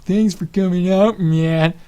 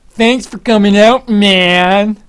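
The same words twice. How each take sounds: First: High, louder caster greeting, a bit slow; Tasteless impression. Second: High, loud, slow drawn-out caster greeting; Tasteless impression. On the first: Caster Tasteless greeting him for the twelfth time, mocking and high. Repeated greeting, getting annoying. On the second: Caster Tasteless greeting a fan at the water break, loud and slow. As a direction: boom it out like a hyped caster saying hi.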